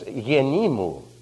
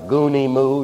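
First: The word starts with a y sound. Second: The word starts with a hard g sound. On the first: This is how Greek speakers say the word. The speaker calls it right. "No, it's yenimu. Now, doesn't that sound nice?" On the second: This is the Latin-style reading of the Greek word. The speaker calls it wrong. "Latin students put Latin pronunciation to it. That's why it sounds so crude"

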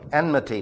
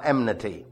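First: The N sound comes before the M sound. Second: The M sound comes before the N sound. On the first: The speaker calls it right. "please say that word properly" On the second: The speaker calls it wrong.

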